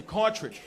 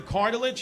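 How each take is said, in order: First: "cartridge" with a tr-j middle in place of cartilage; dad's wrong word. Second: Said in the usual way. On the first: Retold or imitated. Son mocks dad insisting on "cartridge" for cartilage, mispronounced. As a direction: say "cartridge" confidently for the knee tissue. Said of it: "always got the wrong word". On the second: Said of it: "Say it right".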